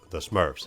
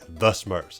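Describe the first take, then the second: First: The phrase is said plainly, without emphasis. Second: The phrase is said with strong emphasis. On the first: "instead of" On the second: "gotta have like an emphasis behind it"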